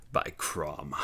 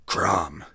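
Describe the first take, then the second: First: Growled oath. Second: Aghast. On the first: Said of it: "Conan growled". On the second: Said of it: "he ejaculated aghast". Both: Acted.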